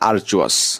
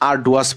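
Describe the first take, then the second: First: The middle consonant is a 'j' sound. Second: The middle consonant is a clear 'd' sound. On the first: The speaker calls it right. "কিন্তু এটা উচ্চারণ এখানে লেখা আছে আর্চুয়াস" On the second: The speaker calls it wrong. "এটা অনেকেই আরডুয়াস বলতে পারে"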